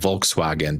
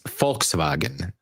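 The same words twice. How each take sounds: First: The word begins with a V sound. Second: The word begins with an F sound. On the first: The speaker calls it wrong. "but you're saying wrong" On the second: The speaker calls it right. "with an F"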